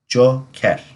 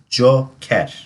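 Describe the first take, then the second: First: It is said with a Turkish pronunciation. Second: The same.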